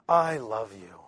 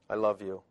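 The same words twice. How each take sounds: First: It is said with an expressive, warm tone. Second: It is said in a flat, plain tone. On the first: The feeling behind the words comes across. "So I add in the tonality" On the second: Only the words carry the message. "It's just the content"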